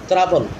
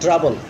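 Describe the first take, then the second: First: The first consonant has an Arabic-influenced sound. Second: The first consonant has the standard English sound. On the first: The speaker calls it wrong. "under the influence of their own native language" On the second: The speaker calls it right. "not trouble"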